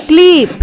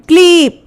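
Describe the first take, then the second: No difference in how they are said.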